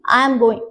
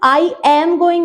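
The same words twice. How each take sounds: First: I and am are run together as I'm. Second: I and am are said as separate words. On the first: The speaker calls it right. "से continuously आई एम" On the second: The speaker calls it wrong. "नहीं"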